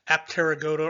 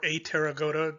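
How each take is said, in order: First: The p sound is pronounced after the first vowel. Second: The p sound is left out after the first vowel. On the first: "whether or not you want to pronounce that P" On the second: "whether or not you want to pronounce that P"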